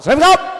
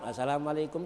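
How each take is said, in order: First: It is said in a police or Jawara manner. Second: It is said in Pak Ustadz's greeting manner.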